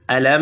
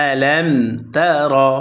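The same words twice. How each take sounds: First: আলাম with a humming nasal hold on the ম; wrong reading. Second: আলাম তারা said slowly with a clear unheld ম; correct reading. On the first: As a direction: demo the mistake: hum the ম of আলাম. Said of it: "তারা এভাবে পড়া যাবে না". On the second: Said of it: "কোনো টান নেই". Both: Shown as a demonstration.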